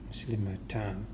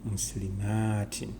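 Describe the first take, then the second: First: The word ends with the sound 'tan'. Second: The word ends with the sound 'tin'. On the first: The speaker calls it wrong. "Maybe someone will think it is going to be Muslimatan" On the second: The speaker calls it right. "but now it's going to be tin"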